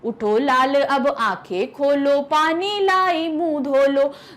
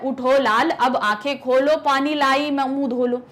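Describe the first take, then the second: First: It is read with a rhythmic lilt. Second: It is read flatly, without rhythm.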